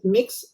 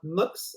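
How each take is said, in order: First: The vowel is a short 'ih' sound. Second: The vowel is a short 'uh' sound. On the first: "you pronounce it mix" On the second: "as if it was a U in between"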